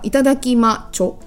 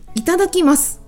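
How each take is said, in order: First: The word ends with a 'cho' sound. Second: The word ends with a plain 'su' sound. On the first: "u もちょに変わるんだ" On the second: "すですね"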